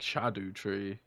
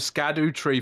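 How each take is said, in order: First: The first word begins with an 'sh' sound. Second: The first word begins with an 'sk' sound. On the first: "It's just pronounced like Shadow Tree" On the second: "people people call them Scadu tree fragments"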